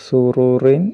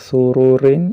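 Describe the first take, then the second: The two takes are said the same way.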